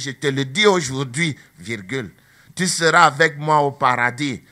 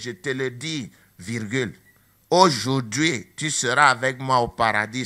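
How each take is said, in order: First: The pause comes after 'aujourd'hui'. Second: The pause comes before 'aujourd'hui'.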